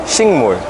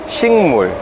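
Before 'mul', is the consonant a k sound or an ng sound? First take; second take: ng sound; ng sound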